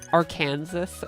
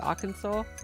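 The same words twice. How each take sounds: First: The final S is sounded. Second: The final S is silent. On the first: The speaker calls it wrong. "I thought for ages it was like Arkansas" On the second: The speaker calls it right. "how to say like Arkansas"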